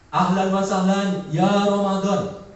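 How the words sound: The phrase is said in an enthusiastic, eager tone. Glad that Ramadan has arrived. "Yang pertama, semangat"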